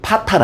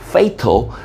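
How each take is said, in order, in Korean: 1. 첫 음절은 'pa'처럼 들립니다. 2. 첫 음절은 'fay'처럼 들립니다. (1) "파탈 아니고" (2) "발음 조심"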